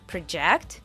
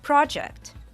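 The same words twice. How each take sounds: First: The stress is on the second syllable. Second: The stress is on the first syllable. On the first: It is the verb, meaning to make your voice carry. "The verb project" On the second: It is the noun, meaning a planned piece of work. "the noun project"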